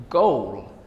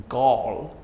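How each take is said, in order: First: Goal said with a rounded oh glide; pronunciation demo. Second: Gall said with a flat aw vowel; pronunciation demo. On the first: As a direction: say goal carefully, lips rounded. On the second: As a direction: say gall carefully, slightly flat. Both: Shown as a demonstration. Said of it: "slight difference in being rounded and flat".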